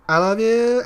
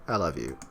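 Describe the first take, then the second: First: Very high, loud, drawn-out cry; escalating hammed-up lovesick shriek; frantic love declaration. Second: Low, falling, settled delivery; understated, deep-pitched love declaration. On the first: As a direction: squeal it out as the obsession peaks. Repeated declarations escalate to frantic peak. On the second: Acted. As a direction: drop low on the confession. Repeated acted declarations of love.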